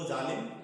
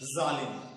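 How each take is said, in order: First: The first consonant is a plain affricate. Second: The first consonant is a friction sound. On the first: "साधारण भाषा में अगर हम कहें तो जालिम" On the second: "ऐसा प्रतीत होता है कि घर्षण के साथ उच्चारित हो रहा है"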